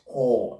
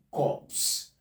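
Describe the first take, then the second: First: "core" left open on the vowel, "kaw"; no consonants closing "core"; P and S dropped. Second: "corpse" said as "kawps", ending in a clear ps; P and S sounded. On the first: Teacher shows what to avoid, final sounds dropped in "core". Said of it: "not core". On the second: Teacher gives the exception, P and S sounded in "corpse". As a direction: finish "corpse" on both P and S. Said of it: "pronounced as it is written". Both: Shown as a demonstration.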